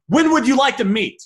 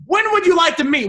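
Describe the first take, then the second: First: Said in the usual way. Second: "would" lifted higher and leaned on; stress on would. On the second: Shown as a demonstration. Coaching a seller on sounding too desperate, "would" pushed higher. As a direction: push "would" up to show the too-eager ask. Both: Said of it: "would be a little bit too much".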